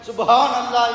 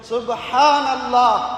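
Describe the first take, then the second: First: The h is a light, plain h sound. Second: The h is a strong, breathy throat sound. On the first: The speaker calls it wrong. "என்று சொல்வது அல்ல" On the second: The speaker calls it right. "ஹா என்று உச்சரிக்க வேண்டும்"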